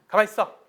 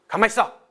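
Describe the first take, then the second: Both takes have the same delivery.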